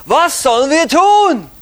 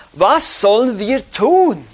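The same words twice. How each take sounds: First: Loud, high-pitched demanding question; crowd asking. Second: Said in the usual way. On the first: Retold or imitated. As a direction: call it out like the crowd pressing Jesus. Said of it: "Die Juden fragten Jesus immer wieder". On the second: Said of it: "da sprachen sie zu ihm".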